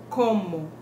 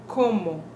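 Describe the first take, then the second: The two takes are said the same way.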